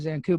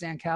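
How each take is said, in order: First: The last syllable sounds like 'koo'. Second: The last syllable sounds like 'cow'.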